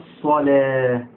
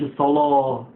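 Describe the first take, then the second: First: The l is light, not emphatic. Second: The l is heavy and emphatic. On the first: The speaker calls it right. "اللام هنا رقيق، مش متفخمة" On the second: The speaker calls it wrong. "لا مش الصلاة"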